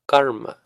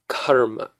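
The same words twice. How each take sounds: First: The k is unaspirated, with no puff of air. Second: The k is aspirated, with a puff of air. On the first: The speaker calls it right. "No ha on the k" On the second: The speaker calls it wrong. "we say it as karma. But those are two very different words"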